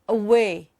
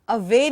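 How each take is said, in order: First: The middle consonant is a W sound. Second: The middle consonant is a V sound. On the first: The speaker calls it right. "There's no ver there" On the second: The speaker calls it wrong. "Away nahi hai"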